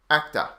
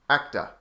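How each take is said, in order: Both takes have the same delivery.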